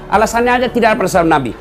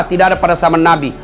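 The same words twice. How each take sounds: First: Rattled off fast and dismissive; mock their excuse at speed; quick mocking rattle. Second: Said in the usual way. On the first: Shown as a demonstration. Preacher mocking the young zealots' excuse, fast and dismissive.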